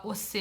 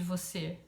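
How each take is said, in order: First: Você said as ocê, the v dropped; ocê, clipped rural country style; Chico Bento ocê. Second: Você said fully with the v; você with a clear v, the standard form. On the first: Teacher showing Chico Bento's dropped-v ocê. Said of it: "fala "você" em vez de "você". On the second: Teacher giving the standard você to compare. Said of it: "em vez de "você". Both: Shown as a demonstration.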